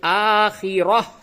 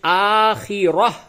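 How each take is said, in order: Both takes have the same delivery.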